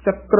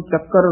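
First: ਚੱਕਰ as "chakkr", k into r; no vowel between k and r in ਚੱਕਰ; correct half rara. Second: ਚੱਕਰ with full r, "chak-kar"; vowel before the r in ਚੱਕਰ; wrong full rara. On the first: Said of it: "ਉਚਾਰਨ ਕਰਨਾ ਹੈ". (ਚੱਕਰ ਪੈਰੀਂ ਰਾਰੇ ਨਾਲ) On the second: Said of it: "ਰਾਰਾ ਪੂਰਾ ਨਹੀਂ ਲਾਉਣਾ". (ਚੱਕਰ ਪੂਰੇ ਰਾਰੇ ਨਾਲ) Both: Shown as a demonstration.

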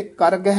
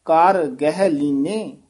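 First: ਕਰ ਗਹਿ run together as one word; quick ਕਰ ਗਹਿ with no gap; fuse ਕਰ and ਗਹਿ; wrongly joined words. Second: ਕਰ alone, then slow ਗਹਿ ਲੀਨੇ; small gap between ਕਰ and ਗਹਿ; separated words. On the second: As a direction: stress ਕਰ, keep ਗਹਿ apart. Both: Shown as a demonstration. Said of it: "ਇਕੱਠਾ ਨਹੀਂ ਕਹਿ ਦੇਣਾ".

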